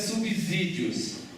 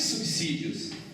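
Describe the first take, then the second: First: The middle s is voiced like a z. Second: The middle s is a hissing s. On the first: The speaker calls it wrong. "Não é subsídios. Um S entre duas vogais" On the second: The speaker calls it right. "entre uma vogal e uma consoante, portanto é subsídio"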